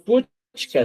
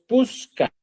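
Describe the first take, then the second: First: The middle consonant is a 'ch' sound. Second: The middle consonant is an 's' sound. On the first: This is the standard form, not everyday speech. "No decimos puchka" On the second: This is how people actually speak. "decimos puska"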